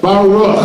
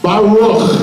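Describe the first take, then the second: First: Baruch, hard throaty ch at the end; Baruch with the guttural ending. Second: Baruch with a throaty ch at the end; guttural ch. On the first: Teacher repeating Baruch for the class, throaty ch. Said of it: "one of the most common phrases". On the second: Teaching the crowd, Baruch with a throaty kh. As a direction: end Baruch on a scraped kh sound. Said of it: "You hear that at the end?". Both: Shown as a demonstration.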